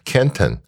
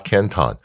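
First: It is pronounced the way the Ohio city is. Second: It is pronounced the way the Chinese city is. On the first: It names the city in Ohio. The speaker calls it right. "那个城市的名字叫做Canton" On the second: It names the city in China. The speaker calls it wrong. "我们就不发Canton"

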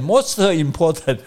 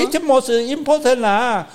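First: It is said in an Indian English accent. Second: It is said in a Singaporean English accent.

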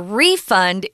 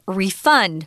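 First: The stress is on the first syllable. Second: The stress is on the second syllable. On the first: It is used as a noun. "But a refund is the noun" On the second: It is used as a verb. "if you use it as a verb, the pronunciation's different"

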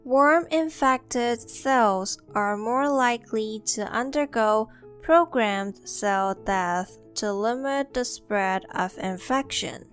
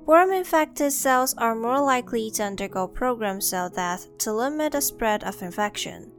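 First: It is said slowly. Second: It is said at normal speed.

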